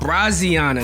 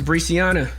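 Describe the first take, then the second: First: The name begins with the sound 'Bra'. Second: The name begins with the sound 'Bree'. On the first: The speaker calls it right. "Braziana, not Bree" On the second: The speaker calls it wrong. "I'm mispronouncing the whole thing"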